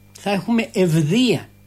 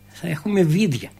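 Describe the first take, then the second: First: The last word begins with an 'ev' sound. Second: The last word begins with a 'vi' sound. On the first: This is the standard form of the word. "Ήτανε" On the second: This is the local dialect form of the word. "στην τοπική διάλεκτο είχε γίνει"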